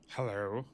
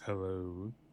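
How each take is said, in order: First: It is said plainly, without oozing. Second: It is said slowly and oozing sleaze.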